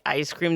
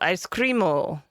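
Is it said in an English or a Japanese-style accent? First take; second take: English; Japanese. First: It is said in a plain English accent. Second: It is said in a Japanese-style accent.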